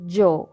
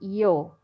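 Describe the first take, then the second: First: It begins with an English j sound. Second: It begins with an English y sound. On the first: It sounds Colombian. "in Colombia, the the Y, in most of the cases, we um, pronounce it like a J" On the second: It sounds like many other countries. "in many countries they say yo. Yes, like an I"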